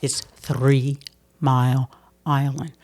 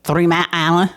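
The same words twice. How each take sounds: First: It's Three Mile Island said slowly, each word crisp and separate; Three Mile Island carefully sounded out, slow; careful elocution. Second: Three Mile Island slurred, Mile and Island run together as mal-ala; Three Mile Island said loosely, lightly imitated regional slur; local accent. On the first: Retold or imitated. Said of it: "They were like". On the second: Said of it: "they said, "You're not using your tongue like".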